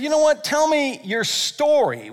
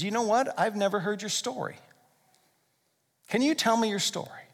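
First: Raised, lively ask to hear a story; eager invitation. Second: Softer, sincere ask; gentle invitation. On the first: Preacher voicing an eager friend, higher and lively. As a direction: invite a friend to share, brightly. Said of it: "When's the last time that you said". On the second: Preacher voicing a deeper talk with a friend, softer and sincere. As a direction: ask quietly, as if it truly matters. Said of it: "what if we took it a layer deeper". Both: Retold or imitated.

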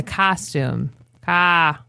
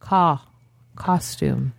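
First: "costume" as "cas-toom", then "Ca" alone; Midwestern vowel. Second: "Ca" as "caw", then low "Costume"; correct vowel. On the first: Showing how Midwesterners talk, flattened "costume". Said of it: "Midwesterners, we wanna everything". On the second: Correcting the local version, rounded "Costume". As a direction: round it: "Ca", "Costume" as "CAWS-toom". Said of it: "He actually says it right". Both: Shown as a demonstration.

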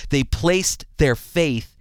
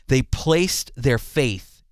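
The two takes are said the same way.

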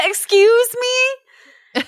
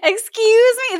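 First: Very high, drawn-out offended excuse me; mock offended. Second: High, indignant excuse me; clipped scandalized retort; mock offended. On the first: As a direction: play scandalized at the beetle's nerve.

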